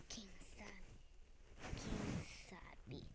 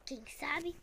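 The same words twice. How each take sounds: First: Breathy secret whisper. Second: Said in the usual way. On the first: Pretend. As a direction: whisper it slyly. Repeated as whisper.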